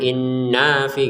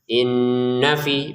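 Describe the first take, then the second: First: The vowel is drawn out before 'fi'. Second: The vowel is short, going straight into 'fi'. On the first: The speaker calls it wrong. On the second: The speaker calls it right. "dengungnya dua harokat kemudian pendek, langsung ke fi aja"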